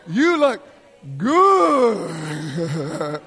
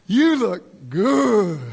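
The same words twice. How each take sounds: First: The words are stretched out and drawn long. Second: The words are said quickly and plainly.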